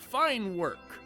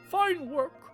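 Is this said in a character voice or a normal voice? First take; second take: normal voice; character voice. First: It is said in the speaker's ordinary voice. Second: It is said in a put-on character voice. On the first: The speaker calls it wrong. "that's not the president" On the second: The speaker calls it right. "He's got like a oh, type, type of voice"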